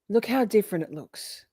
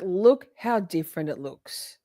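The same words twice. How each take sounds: First: Said in the usual way. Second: Slow, leaning on look; slow emphatic repeat. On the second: Real, not acted. Streamer urging viewers to notice the video, slow emphasis. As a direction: draw it out to drive the point home. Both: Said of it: "Like, look how different it looks".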